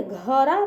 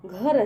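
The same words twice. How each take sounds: First: घरा with an extra a sound at the end, said slowly; घरा pronounced gha-ra, a deliberately wrong reading; wrong pronunciation. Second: घर said as ghar with no final vowel; घर pronounced ghar, the right reading; correct pronunciation. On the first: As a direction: say घरा as gha-ra, stretching the final a. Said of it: "क्या हम इसको इस तरह से पढ़ेंगे". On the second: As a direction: end घर cleanly on the r. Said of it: "घरा नहीं ना है, घर है". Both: Shown as a demonstration.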